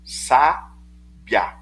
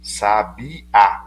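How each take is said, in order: First: The stress is on the second-to-last syllable. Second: The stress is on the last syllable. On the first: "Então é uma paroxítona" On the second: "o A fica sozinho, é oxítono"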